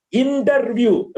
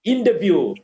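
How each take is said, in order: First: "interview" with a strong R in the middle; wrong pronunciation. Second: "Interview" as "in-tuh-view", no R, lower; corrected pronunciation. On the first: Teacher demonstrating the error, wrong pronunciation. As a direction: say "interview" as "in-terr-view". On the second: Teacher modelling after the error, corrected pronunciation. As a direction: drop the R inside "Interview". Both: Shown as a demonstration.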